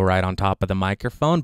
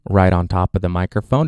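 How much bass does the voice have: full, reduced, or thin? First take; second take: reduced; full. First: The voice is close with some bass removed. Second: The voice is close with full, boomy bass. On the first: "the high pass filter is set to the middle setting" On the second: "with the high pass filter set to off"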